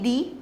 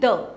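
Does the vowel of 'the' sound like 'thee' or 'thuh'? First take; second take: thee; thuh. First: The vowel is a long 'ee' sound. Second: The vowel is a short 'uh' sound. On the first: "एक pronunciation है इसकी दी" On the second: "एक pronunciation है इसकी द"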